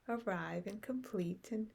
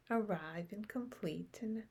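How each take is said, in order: Both takes have the same delivery.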